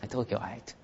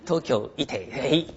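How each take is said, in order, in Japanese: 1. 語尾は「ait」のように聞こえます。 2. 語尾は「ee-teh」のように聞こえます。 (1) "東京のあいつですよ" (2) "東京いてとかですね、これやめてくださいね。"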